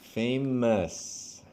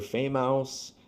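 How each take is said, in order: First: The ending is a short, weak 'us' sound. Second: The ending sounds like 'ouse', as in 'house'. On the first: The speaker calls it right. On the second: The speaker calls it wrong.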